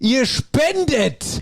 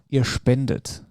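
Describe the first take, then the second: First: It is said in a raised, emphatic voice. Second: It is said in a normal, calm voice.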